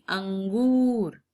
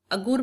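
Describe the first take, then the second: First: अंगूर slow with the full nasal अं; correct reading. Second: अगूर without the nasal, as a mistake; wrong reading. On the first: Teacher corrects pupils with the proper अंगूर. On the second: Teacher shows the wrong reading अगूर. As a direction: say अगूर dropping the nasal sound. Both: Shown as a demonstration. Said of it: "नहीं, अंगूर।".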